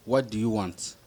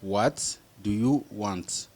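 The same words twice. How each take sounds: First: Said in the usual way. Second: Very slow, word by word; teacher's slow model repeat; slow and careful. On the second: Shown as a demonstration. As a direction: spell it out slowly for learners.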